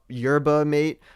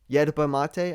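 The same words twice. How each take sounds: First: It is said the English way, as spelled. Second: It is said the Chilean Spanish way. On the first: "It's it's spelled yerba mate" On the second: "my one boy from Chile says he, they pronounce it yerba mate"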